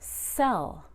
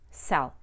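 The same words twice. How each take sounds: First: The vowel is stretched out before the L. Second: The vowel is short, going straight into L. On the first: "I stretched out the vowel" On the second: "I didn't just say sell"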